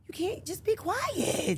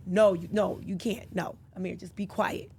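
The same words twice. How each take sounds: First: High, slow, drawn-out mom plea; exasperated mock hushing. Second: Low-key, firm mom shutting it down; retold firm refusal. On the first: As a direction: stretch it out high, like a fed-up mom. Retold exasperated hushing of son. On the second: Retold hushing of Amir.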